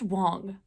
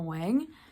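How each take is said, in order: First: The vowel is the 'o' sound of 'wong'. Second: The vowel is the 'a' sound of 'wang'. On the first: The speaker calls it right. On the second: The speaker calls it wrong.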